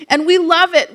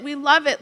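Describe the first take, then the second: First: Higher and louder, beaming; gushing. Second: Said in the usual way. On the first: Real, not acted. Teacher recalling drum class for the audience, gushing louder. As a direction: burst out with how much they loved it.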